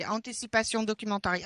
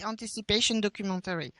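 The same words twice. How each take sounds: First: "anticipation documentary" with French nasal vowels, "anticipasjɔ̃ dɔkymɑ̃tari"; "anticipation documentary" in French-accented English, fast; French pronunciation. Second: "anticipation documentary" with an English "-peɪʃən" ending, quick and soft; "anticipation documentary" retried closer to English; corrected English pronunciation. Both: Shown as a demonstration. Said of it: "with my French accent, sorry".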